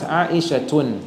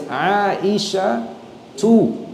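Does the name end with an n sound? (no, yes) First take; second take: yes; no. First: The name ends in u followed by n. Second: The name ends in a plain u vowel. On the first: The speaker calls it wrong. "not Aisha tun" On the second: The speaker calls it right. "her name as well is Aisha tu"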